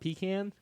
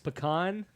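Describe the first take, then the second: First: It is said the Northern way. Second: It is said the Southern way. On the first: The speaker calls it wrong. "not pecan. fucking Yankees" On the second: The speaker calls it right. "it's pecan"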